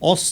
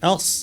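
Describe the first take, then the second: First: The vowel is heavy and rounded. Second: The vowel is light and open. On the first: The speaker calls it wrong. "অস না" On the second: The speaker calls it right. "আটা পাতলা"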